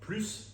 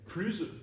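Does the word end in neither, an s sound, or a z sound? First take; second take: s sound; z sound. First: The word ends with a clear s sound. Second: The word ends with a buzzing z sound. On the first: "avec le S prononcé" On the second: "avec le S prononcé comme un Z"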